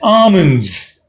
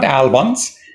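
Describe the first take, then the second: First: The L sound is left out of the word. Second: The L sound is pronounced in the word. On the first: The speaker calls it right. "L is not pronounced here" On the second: The speaker calls it wrong. "Not almonds"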